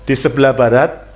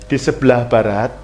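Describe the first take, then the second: Both takes have the same delivery.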